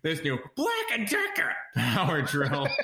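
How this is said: It is said in a shrill, grating put-on voice. "we should overdub it with the voice of Gilbert Gottfried"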